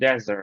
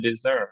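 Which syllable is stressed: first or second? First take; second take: first; second. First: The stress is on the first syllable. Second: The stress is on the second syllable. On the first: The word is used as a noun. "এটা noun আকারে use হয় সেটা হচ্ছে dessert" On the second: The word is used as a verb. "Verb আকারে থাকে তাহলে dessert"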